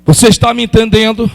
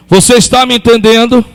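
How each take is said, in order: Both takes have the same delivery.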